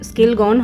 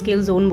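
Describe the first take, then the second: First: The second part is said as 'gon'. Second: The second part is said as 'zone'. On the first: The speaker calls it right. "ওটা ওয়ালপুলের scale scale গন হবে" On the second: The speaker calls it wrong. "আগের দিন না আমি প্রোনাউন্সিয়েশনটা খুব ভুল বলেছি"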